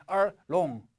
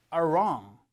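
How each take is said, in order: First: R wrong split apart, wrong starting like long; students' mistaken R. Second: R wrong joined, R gliding straight into wrong; slow R wrong with curled-tongue R; correct R onset. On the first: Retold or imitated. Teacher imitating students' mistake, R wrong said as R, long. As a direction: break between R and wrong, lose the R. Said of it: "학생들 어떻게 하냐면". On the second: Shown as a demonstration. Teacher modelling for students to repeat, R flowing into wrong. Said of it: "한번 따라해 보실게요".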